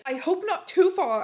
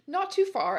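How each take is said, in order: First: High, loud mock-angry retort; angry shout. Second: Said in the usual way. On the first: A narrator's reading. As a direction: shout it back with hammed-up anger. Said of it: "I shouted angrily". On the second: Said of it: "I borked".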